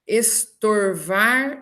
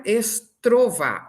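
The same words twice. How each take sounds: First: "estorvar" bem devagar, com tor; tor na sílaba. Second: "estrovar" devagar, com tro; transposição do R. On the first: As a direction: diga "estorvar" silabado: es-tor-var. ("estorvar" pausado, R depois do o) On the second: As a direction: diga "estrovar" silabado: es-tro-vá. ("estrovar" pausado, R antes do o) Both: Shown as a demonstration. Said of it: "esse tor vira tro".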